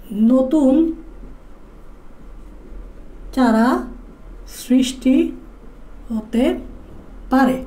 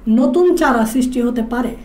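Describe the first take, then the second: First: Each word set apart with long pauses; slow dictation. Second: Said in the usual way. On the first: Shown as a demonstration. Teacher dictating a note to students, slow and spaced. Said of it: "teacher dictates note word by word". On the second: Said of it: "teacher dictates note for students".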